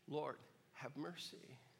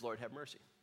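First: It is said in a whisper. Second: It is said in a normal voice.

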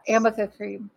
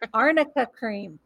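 First: The first word has an m sound in the middle. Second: The first word has an rn sound in the middle. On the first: The speaker calls it wrong. "Stop with the Amica cream" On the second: The speaker calls it right. "Arnica cream. That makes sense"

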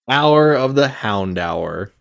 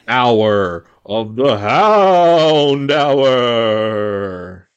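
First: It is said in a plain, neutral way. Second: It is said in a sinister, menacing way.

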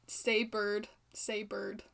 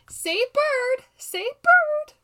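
First: It is said in a plain, flat voice. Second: It is said with the character's intonation.

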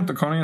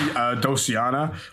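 First: The name has a 'k' sound in the middle. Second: The name has no 'k' sound in the middle. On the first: "is that how you say it?" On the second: "I used to say Dociana"

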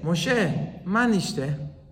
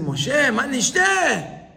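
First: It is asked in a calm, polite tone. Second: It is asked in a complaining, whiny tone.

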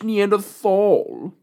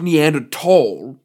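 First: The word is said the American English way. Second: The word is said the British English way. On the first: The speaker calls it right. "We say Neanderthal" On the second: The speaker calls it wrong. "we're not, you know, British English. ... It's not Neanderthal"

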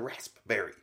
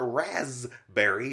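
First: The middle is said with an s-p sound. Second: The middle is said with a z sound. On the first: The speaker calls it right. "it's a raspberry" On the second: The speaker calls it wrong. "people like put a Z in it instead of the SP"

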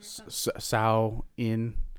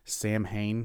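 First: It begins with 'Sow' and has no 'h' sound. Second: It begins with 'Sam' and has an 'h' sound. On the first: The speaker calls it right. "It's pronounced Sow-in" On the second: The speaker calls it wrong. "which is not pronounced that way"

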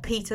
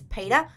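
First: The name is said in the speaker's plain way. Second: The name is said the film's American-accent way. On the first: This is the normal way to say the name. The speaker calls it right. "not Peter" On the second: This is how the film characters say it. The speaker calls it wrong. "Because they spell it P-E-T-A"

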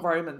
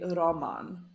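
First: It is said with English pronunciation. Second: It is said with Polish pronunciation.

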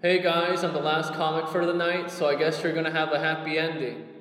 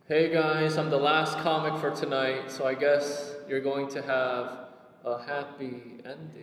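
First: The delivery stays at a steady pace. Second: The delivery slows down toward the end.

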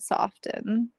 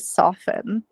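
First: The T sound is clearly and sharply pronounced. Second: The T sound is silent, not pronounced. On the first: "I really pronounced that T this time. That was a sharp T" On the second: "I usually just say soften"

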